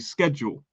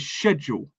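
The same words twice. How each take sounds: First: It is said with an American pronunciation. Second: It is said with a British pronunciation. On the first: "the Americans say schedule" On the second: "we should say schedule"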